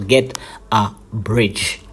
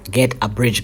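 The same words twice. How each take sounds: First: Slow down and lean on Get in Get a bridge; slow, stressed advice. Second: Said in the usual way. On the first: Shown as a demonstration. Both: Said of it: "so don't do it, guys".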